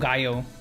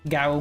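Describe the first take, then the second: First: The double L is said as a Y sound. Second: The double L is silent, with no Y sound. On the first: The speaker calls it right. "Double in Spanish is a Y sound?" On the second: The speaker calls it wrong. "did I actually, actually mess that up?"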